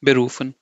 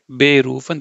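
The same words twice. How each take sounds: First: Said in the usual way. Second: "berufen" with BE emphasized and set apart; wrongly stressed prefix. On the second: Shown as a demonstration. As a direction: punch a long BE at the start of "berufen". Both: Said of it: "they will not emphasize".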